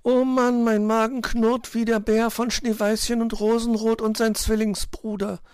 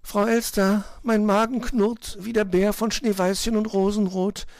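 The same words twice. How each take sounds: First: High, loud whining chirp; exasperated piping bird; complaining little bird. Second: High piping bird complaint; high, insistent chirpy voice; whining little bird. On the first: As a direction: moan long and high about hunger. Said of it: "beschwerte sich Zwitschi". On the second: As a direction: pipe it plaintively as a tiny bird. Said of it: "behauptete Zwitschi". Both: A narrator's reading.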